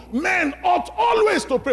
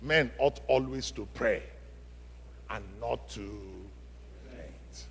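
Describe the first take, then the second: First: Proclaimed loud and high, punching always; shouted scripture. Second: Fading from soft to barely audible, much lower; quiet scripture. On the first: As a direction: shout the verse to the back row. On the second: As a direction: let the verse die away into a hush. Verse fading to near silence. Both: Acted.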